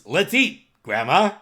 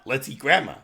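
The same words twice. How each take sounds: First: There is a pause after eat. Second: There is no pause after eat. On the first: Grandma is being invited to eat. The speaker calls it right. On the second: Grandma is the food. The speaker calls it wrong. "It's not"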